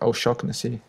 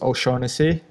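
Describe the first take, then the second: First: The name is said with an Irish pronunciation. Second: The name is said with an English pronunciation. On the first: "it's an Irish name, and the area from where it comes from, you should pronounce it O'Shaughnessy" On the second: "the English way is O'Shaughnessy"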